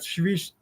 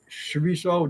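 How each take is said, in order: First: It begins with an sh sound, two syllables. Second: It begins with a ch sound, three syllables. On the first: This is the local Portuguese name. "spelled the same, but it's not s- pronounced the same" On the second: This is the name used down south. "down south"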